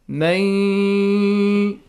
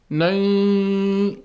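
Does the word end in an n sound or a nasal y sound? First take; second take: nasal y; nasal y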